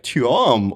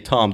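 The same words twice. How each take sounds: First: The name is said with a twirl at the end. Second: The name is said plainly, with no added ending. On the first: This is how others mispronounced the name. The speaker calls it wrong. "They would say like Tom" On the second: This is the normal pronunciation of the name. The speaker calls it right. "they wouldn't say Tom"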